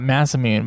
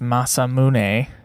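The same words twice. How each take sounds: First: The name is said with English-style sounds. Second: The name is said with Japanese-style sounds. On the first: The speaker calls it wrong. "I want to call it" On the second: The speaker calls it right. "but I know it's"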